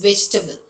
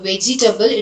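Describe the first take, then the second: First: The middle e sound is dropped. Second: The middle e sound is pronounced. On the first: The speaker calls it right. "No e sound" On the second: The speaker calls it wrong. "it is not vegetable"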